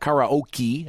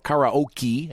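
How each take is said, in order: First: It is said in the American pronunciation. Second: It is said in the American pronunciation.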